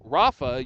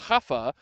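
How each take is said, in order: First: The name starts with an English R sound. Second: The name starts with an H-like sound. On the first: "we call him Rafa" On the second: "You pronounce it like an H"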